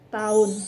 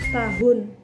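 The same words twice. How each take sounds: First: The middle h sound is dropped. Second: The middle h sound is pronounced. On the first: The speaker calls it wrong. "lafal tidak baku" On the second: The speaker calls it right. "lafal baku"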